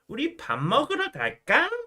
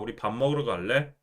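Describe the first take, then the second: First: It is said in a cutesy voice. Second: It is said in a normal voice.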